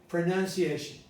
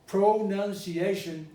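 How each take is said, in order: First: The unstressed vowels are reduced to schwa. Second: The unstressed vowels are pronounced as full vowels. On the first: The speaker calls it right. "It has to be" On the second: The speaker calls it wrong. "it would be a little weird, a little strange"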